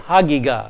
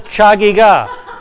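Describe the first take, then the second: First: It begins with a plain h sound. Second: It begins with a ch sound as in church. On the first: The speaker calls it right. "If you can't do the guttural, say H, say Hagiga" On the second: The speaker calls it wrong. "Please do not call it the Chagigah. It is not the Chagigah"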